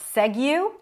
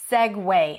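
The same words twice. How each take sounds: First: The word does not end with a 'way' sound. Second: The word ends with a 'way' sound. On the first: The speaker calls it wrong. "and not segue" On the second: The speaker calls it right. "but segue. ... Where is the W in the spelling?"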